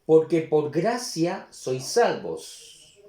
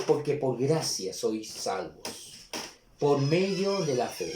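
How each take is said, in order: First: Slow, firm, a little louder reading; slow scripture reading. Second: Slow, quieter, deliberate reread of "Porque por gracia sois salvos"; slow, softer reread. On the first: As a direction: lay out each word of the verse slowly. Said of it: "y el nueve también". (lectura lenta y firme del versículo) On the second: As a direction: let the verse sink in gently and slowly. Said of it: "una vez más dice". (relectura lenta y más suave) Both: Shown as a demonstration.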